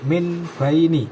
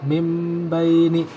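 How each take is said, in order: First: The first word ends with an n sound. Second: The first word ends with an m sound. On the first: The speaker calls it wrong. "bukan min baini" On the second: The speaker calls it right. "dibaca mim baini"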